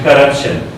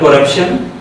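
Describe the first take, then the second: First: The first vowel sounds like an 'a'. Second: The first vowel sounds like a full 'o'. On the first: The speaker calls it right. "but corruption" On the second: The speaker calls it wrong. "suppose not corruption"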